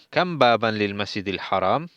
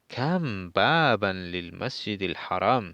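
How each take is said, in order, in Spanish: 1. Se dice con una entonación interrogativa. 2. Se dice con una entonación exclamativa.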